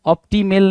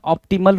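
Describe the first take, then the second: First: Op-ti-MEL; wrong optimal. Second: OP-ti-mul; correct optimal. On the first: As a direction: say ऑप्टिमेल with a full "mel" ending. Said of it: "नहीं होता है". (ऑप्टिमेल के अंत में "मेल" बोलें) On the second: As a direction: say ऑप्टिमल with a short "mul" ending. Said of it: "ऑप्टिमल होगा ना". (ऑप्टिमल के अंत में छोटा "मल" बोलें) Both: Shown as a demonstration.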